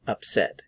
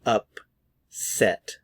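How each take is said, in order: First: Said in the usual way. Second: "Upset" broken as up, pause, set; syllable by syllable. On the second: Shown as a demonstration. Teacher models "Upset" for learners, syllable by syllable. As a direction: split "Upset" into two careful syllables. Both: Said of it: "Notice the pronunciation".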